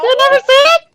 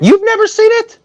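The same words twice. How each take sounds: First: High-pitched laughing repeat; copying high voice. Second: Much higher, squeaky disbelief; voice jumps high. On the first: Acted. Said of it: "I was copying it". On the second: Real, not acted. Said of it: "my voice go ten registers up".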